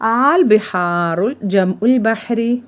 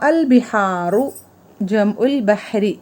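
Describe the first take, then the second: First: The opening vowel is drawn out long. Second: The opening vowel is short and plain. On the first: It asks a question. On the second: It states a fact.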